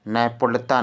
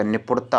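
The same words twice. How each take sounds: First: "नैपुणता" with ai in the first syllable; wrong form demonstrated. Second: "निपुणता" with a short i first; correct form demonstrated. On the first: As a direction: open "नैपुणता" as nai. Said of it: "नैपुणता नहीं होता". ("नैपुणता" में ऐ की मात्रा) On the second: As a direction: open "निपुणता" as ni. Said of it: "निपुणता होता". ("निपुणता" में इ की मात्रा) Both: Shown as a demonstration.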